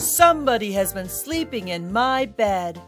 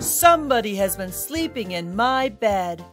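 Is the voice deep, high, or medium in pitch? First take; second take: deep; deep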